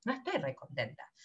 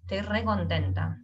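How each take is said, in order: First: Much softer and lower, "No estoy re contenta" sounding dejected; glum. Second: Said in the usual way. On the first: Shown as a demonstration. Teacher showing a glum tone to the class. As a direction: mutter it, clearly not happy. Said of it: "mi voz, mi tono te está diciendo". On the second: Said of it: "Si yo te digo".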